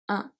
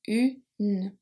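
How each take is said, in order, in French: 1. Le n final ne se prononce pas comme une consonne. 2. Le n final est bien prononcé. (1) "Otherwise it will be pronounced un" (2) "we pronounce the N before. So it's pronounced une"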